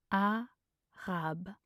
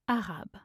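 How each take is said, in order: First: Slow, two syllables apart. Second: Said in the usual way. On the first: Shown as a demonstration. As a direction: pause between the syllables. Pronunciation guide, broken-down take.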